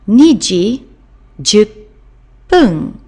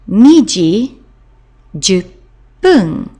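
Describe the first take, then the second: Both takes have the same delivery.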